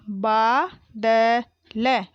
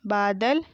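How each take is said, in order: First: बादल drawn out as baa, da, la; very slow बादल, each letter held apart; spelled out. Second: Said in the usual way. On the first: Shown as a demonstration. Teacher sounding out बादल for pupils, syllable by syllable. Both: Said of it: "मैंने इस तरीके से पढ़ा".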